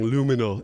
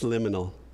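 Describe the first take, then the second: First: The first vowel sounds like 'loo'. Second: The first vowel sounds like 'lih'. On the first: The speaker calls it wrong. "I was saying luminal" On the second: The speaker calls it right. "It's liminal"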